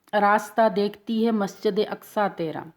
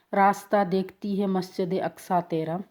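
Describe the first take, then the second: Both takes have the same delivery.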